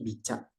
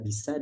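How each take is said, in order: First: The middle consonant is a CH sound. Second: The middle consonant is an S sound. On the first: The speaker calls it wrong. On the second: The speaker calls it right.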